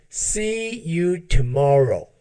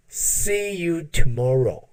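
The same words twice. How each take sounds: The two takes are said the same way.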